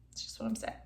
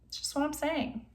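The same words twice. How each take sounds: First: Breathy whisper, repeating the point. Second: Softer, trailing aside; quiet aside. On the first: Vlogger whispering her point again to viewers, whisper. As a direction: whisper it as a sly afterthought. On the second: Vlogger muttering her point to viewers, quiet aside. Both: Real, not acted.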